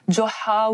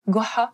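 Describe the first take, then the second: First: The name begins with a 'dj' sound. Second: The name begins with a hard 'g' sound. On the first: This is how it is said in the Maghreb. "Au Maroc et en Algérie, on on dit Djeha ou heu, Djoha" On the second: This is how Egyptians say it. "parce qu'ils prononcent le dja en disant heu, ga, Goha"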